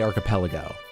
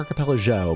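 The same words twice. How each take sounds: First: It begins with a hard k sound. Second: It begins with a soft ch sound. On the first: "hard C H. Because I say archipelago" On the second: "I don't say archipelago"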